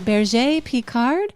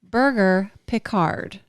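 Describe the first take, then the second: First: The first word is said the French way. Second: The first word is said like 'burger'.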